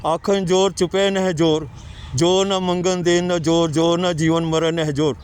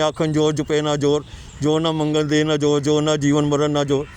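First: Slow, with every ਨਹਿ said as a clear "neh"; correct recitation. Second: Quick, with each ਨਾ said as a short "na" for ਨਹਿ; wrong rushed reading. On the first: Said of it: "ਉੱਥੇ ਨਹਿ ਹੈਗਾ". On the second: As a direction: hurry through it, swallowing ਨਹਿ into "na". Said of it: "ਜਲਦੀ ਜਲਦੀ ਨਾ ਪੜ੍ਹਦੇ ਨੇ". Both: Shown as a demonstration.

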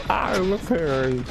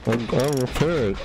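First: High, drawn-out playful repeat; playful singsong. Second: Said in the usual way. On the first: Real, not acted. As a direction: stretch it out high and silly. Playful repeat while repairing.

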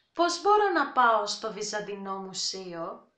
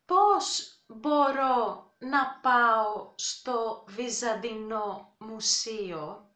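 First: Πώς μπορώ να πάω στο Βυζαντινό Μουσείο? at brisk native speed; quick everyday pace; fast natural take. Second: Slow, careful Πώς μπορώ να πάω στο Βυζαντινό Μουσείο; for learners; slow demo. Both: Shown as a demonstration.

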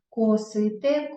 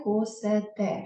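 First: "Косите" drawn out with и before те; clear и vowel. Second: "косете" drawn out with е before те; е instead of и. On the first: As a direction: slowly sound the и in "Косите". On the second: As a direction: slowly sound the wrong е in "косете". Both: Shown as a demonstration. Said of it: "Тому ми напишемо".

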